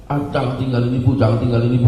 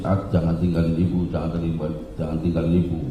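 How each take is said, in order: First: Mildly higher, imitating a scared mother; hint of a frightened old mother; frightened plea. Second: Softer, retold tearful begging; understated sobbing plea; crying plea. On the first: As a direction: beg not to be left, lightly acted. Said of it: "Ibu langsung ketakutan". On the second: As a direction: imitate a weeping mother, quietly. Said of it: "nangis-nangis".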